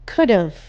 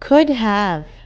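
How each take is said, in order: First: The words are merged into one short word. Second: Both words are said fully and separately.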